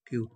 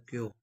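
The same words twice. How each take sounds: First: کیو with a y-glide into oo; kyu sound. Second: کیو with a y-glide into o; kyo sound. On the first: Teacher blending Korean letters, کیو as "kyu". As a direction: say کیو as "kyu", ending in long oo. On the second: Teacher blending Korean letters, کیو as "kyo". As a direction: say کیو as "kyo", ending in long o. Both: Shown as a demonstration. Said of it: "آواز نکالے گا".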